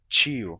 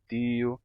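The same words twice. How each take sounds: First: The T is softened toward a ch sound. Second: The T is a plain, pure T sound. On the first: "passou por um processo de palatalização" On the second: "com o som de T puro"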